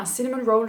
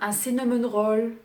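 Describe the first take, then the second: First: Cinnamon roll is pronounced the English way. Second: Cinnamon roll is pronounced the French way. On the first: The speaker's own way of saying it. "C'est mon accent" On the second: How the French server said it. "vous prononcez ça cinnamon roll?"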